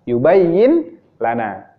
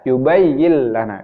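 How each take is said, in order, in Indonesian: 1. Bunyi n dibaca sebelum lana. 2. Bunyi n menyatu dengan l setelahnya.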